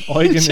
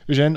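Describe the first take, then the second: First: The name is pronounced the German way. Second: The name is pronounced the French way. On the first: "Eugen in German" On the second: "I think it's a proper pronunciation in French"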